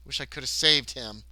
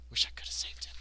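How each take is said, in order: First: Said in the usual way. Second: Whispered echo of regret; hushed, voiceless lament. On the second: Acted. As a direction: whisper it to yourself mournfully.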